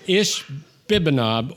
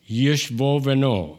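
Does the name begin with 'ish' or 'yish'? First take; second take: ish; yish. First: It starts with ish and has b sounds. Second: It starts with yish and has v sounds.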